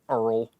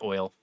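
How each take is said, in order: First: It is drawled like a Texan, sounding like 'earl'. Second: It is said plainly, without a Texan drawl. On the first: The speaker calls it wrong. "you say it like a Texan" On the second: The speaker calls it right.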